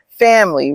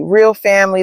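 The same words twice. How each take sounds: First: Said in the usual way. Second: Real lifted and stressed. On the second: Shown as a demonstration. Miles telling his mother what matters, with real stressed. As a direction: lean on the word real.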